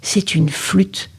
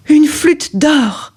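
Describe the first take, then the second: First: Said in the usual way. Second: Amazed discovery. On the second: A narrator's reading. Discovery of golden flute.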